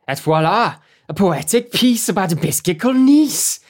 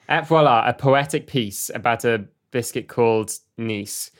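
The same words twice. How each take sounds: First: It is read in a Welsh accent. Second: It is read in a non-Welsh accent.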